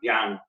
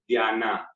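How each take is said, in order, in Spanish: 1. La vocal final apenas se oye. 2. La vocal final se pronuncia completa. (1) "la última A se pronuncia eh, leve" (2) "no es dhyana"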